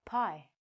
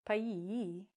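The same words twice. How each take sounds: First: "pie" with a short clean long i; "pie" with the e silent; correct pronunciation. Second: Slow "pie" dragged out into pie-ee; "pie" drawn out into two vowels; wrong pronunciation. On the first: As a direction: say "pie" as one syllable. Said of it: "this word is". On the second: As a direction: say "pie" with the final e voiced as ee. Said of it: "We don't say". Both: Shown as a demonstration.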